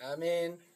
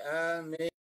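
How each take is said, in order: First: The first vowel is short, the m single. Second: The first vowel is long, the m doubled. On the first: "bil qasri diwaca kelawan pendek wa tahfifilan enteng" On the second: "bil maddi kelawan diwaca dawa wa tasdid"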